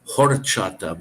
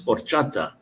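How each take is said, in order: First: The first H sound is pronounced aloud. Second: The first H sound is left silent. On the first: The speaker calls it wrong. "it's spelled H O R, like horchata, but it's not" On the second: The speaker calls it right. "the H is silent, so it's horchata"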